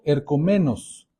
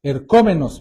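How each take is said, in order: First: Ercomenos with the stress off the O; mispronounced Greek word. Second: Ercómenos stressed on the O, er-CÓ-me-nos; corrected Greek word. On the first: Pastor slipping on the Greek word before correcting. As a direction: say ercomenos with the accent in the wrong place. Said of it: "perdón, ercómenos tiene acento en la O". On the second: Pastor correcting his Greek for the congregation, stress on the O. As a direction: put the accent on the O in Ercómenos. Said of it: "ercómenos tiene acento en la O". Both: Shown as a demonstration.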